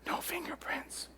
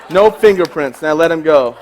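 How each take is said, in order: First: Soft, slow breathy threat; menacing whisper. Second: Louder punchline; plain loud repeat. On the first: Retold or imitated. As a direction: hiss it close to his ear. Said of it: "and I whisper". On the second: Shown as a demonstration. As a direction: say it out loud to the room. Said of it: "I whisper".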